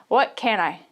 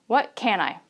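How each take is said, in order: The two takes are said the same way.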